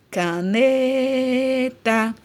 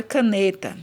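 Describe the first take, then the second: First: CANETA with the NE held very long and higher; drawn-out stress. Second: Said in the usual way. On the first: Shown as a demonstration. Teacher shows class the stressed syllable, NE drawn out in CANETA. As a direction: stretch the NE of CANETA, then drop onto TA. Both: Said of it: "o ne eu demorei mais falando".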